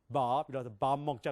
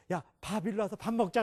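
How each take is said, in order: First: Put-on American accent. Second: High, brisk Korean "밥 일로 와서 밥 먹자". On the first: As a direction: lower American-accented Korean, long "Baab" for 밥. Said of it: "미국 사람도 어떻게 하면". (낮게 늘이는 미국식 억양) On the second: Acted. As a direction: call out 밥 short and high, Korean style. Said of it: "우리는 이렇게". (한국식으로 높고 짧게 부르는 밥)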